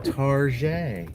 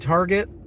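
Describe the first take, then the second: First: The word gets a fancy, affected pronunciation. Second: The word gets its ordinary everyday pronunciation.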